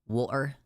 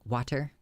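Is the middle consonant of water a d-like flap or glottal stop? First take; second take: glottal stop; d-like flap. First: The middle t is replaced by a glottal stop. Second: The middle t sounds like a soft d. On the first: "The British don't pronounce the T at all. True, the glottal stop" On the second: "Americans love to voice their T's and turn them into D's"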